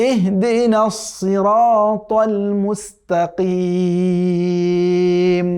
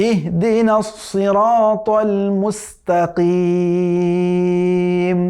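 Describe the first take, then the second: Both takes have the same delivery.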